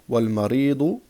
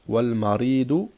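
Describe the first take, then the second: The two takes are said the same way.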